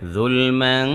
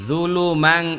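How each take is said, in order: First: The 'l' is held smoothly with no echo vowel. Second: The 'l' is bounced with an added echo vowel. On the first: The speaker calls it right. "জুলম্যাং ক্যাসির বলেন" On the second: The speaker calls it wrong. "কলকলা হয়ে গেছে"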